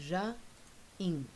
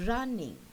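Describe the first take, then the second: First: "running" pulled apart, RUN, long pause, ING; split into syllables. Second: Said in the usual way. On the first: Shown as a demonstration. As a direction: break "running" into two slow beats. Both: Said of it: "take the two syllables apart".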